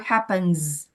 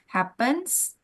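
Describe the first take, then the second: First: The word ends with a buzzing Z sound. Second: The word ends with a hissing S sound. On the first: "Pakai S atau pakai Z?" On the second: "Pakai S atau pakai Z?"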